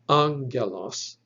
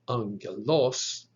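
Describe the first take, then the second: First: The stress is on the first syllable. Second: The stress is on the third syllable. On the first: The speaker calls it right. "The accent or the emphasis should be on that first syllable" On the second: The speaker calls it wrong. "nor is it pronounced"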